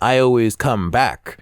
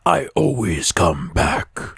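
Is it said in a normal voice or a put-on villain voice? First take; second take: normal voice; put-on voice. First: It is said in a normal speaking voice. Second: It is said in a put-on Springtrap voice.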